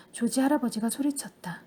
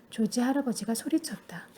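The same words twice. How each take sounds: First: Narration line in a whisper. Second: Said in the usual way. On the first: A narrator's reading. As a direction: breathe the line without voice. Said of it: "unvoiced whisper".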